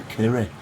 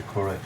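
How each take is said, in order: First: "curry" said as kirry, the first vowel like "i" in sit; "curry" with a Bolton short i, kirry. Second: Said in the usual way. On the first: Shown as a demonstration. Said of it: "Or if you live in Bolton, it's a curry". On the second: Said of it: "Or if you live in Bolton".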